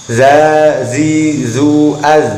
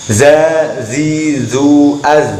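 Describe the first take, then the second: The two takes are said the same way.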